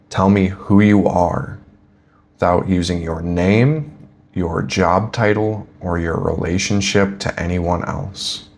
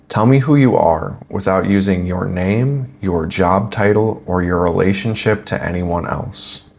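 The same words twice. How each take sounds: First: It is said slowly. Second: It is said at a normal speed.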